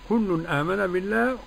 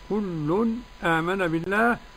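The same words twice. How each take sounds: First: The glottal stop is fully pronounced without a break. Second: A brief silent break comes before the glottal stop. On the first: "والتحقيق" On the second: "بالسكت"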